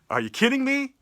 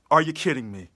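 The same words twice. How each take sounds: First: High, disbelieving are you kidding me; outraged disbelief at the contract; incredulous. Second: Said in the usual way. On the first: Real, not acted. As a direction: throw the question up in disbelief. Incredulous rant about contract.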